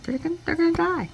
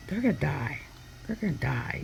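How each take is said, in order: First: High, fast, panicky mock wail; imitating a frightened lady, high and rushed; frantic panic. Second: Hushed, tense mock whisper; mild imitated muffled dread; hushed panic. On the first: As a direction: blurt it out in high alarm. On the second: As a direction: murmur it like a hand is over the mic. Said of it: "covering the mic".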